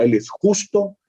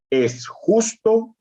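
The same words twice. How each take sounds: First: "justo" lifted high to emphasize it; stress on justo. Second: "justo" pitched high and drawn out; stress on justo. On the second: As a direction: lift and stretch "justo". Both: Shown as a demonstration. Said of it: "recalcando la primera palabra".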